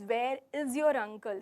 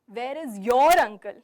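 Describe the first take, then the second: First: The word 'is' carries the main stress. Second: The word 'your' carries the main stress. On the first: He has not been seen around. "if I'm stressing on is" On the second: The question is about the listener's uncle specifically. "So when I'm stressing on your"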